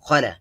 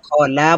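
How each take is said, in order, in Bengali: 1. শব্দটি কোনো বিরতি ছাড়াই মসৃণভাবে জোড়া লাগিয়ে বলা হচ্ছে। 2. শব্দটি অক্ষরের মাঝে বিরতি দিয়ে ভাঙা হচ্ছে।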